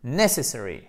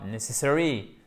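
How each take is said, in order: First: "necessary" with NESS firmly stressed; correct first-syllable stress. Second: "necessary" with no push on NESS, weight at the end; wrong stress. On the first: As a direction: punch the first syllable of "necessary", unfold the rest. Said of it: "mais bien necessary". (« necessary » bien accentué sur la première syllabe) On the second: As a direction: misplace the accent in "necessary" onto the final syllables. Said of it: "Et non pas necessary". (« necessary » mal accentué, sans appui sur la première syllabe) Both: Shown as a demonstration.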